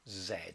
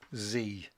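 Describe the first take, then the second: First: The letter is said the British way, zed. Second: The letter is said the American way, zee.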